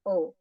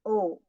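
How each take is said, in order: First: The vowel is short. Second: The vowel is long. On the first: "Yang pendek misalnya" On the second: "Yang panjang"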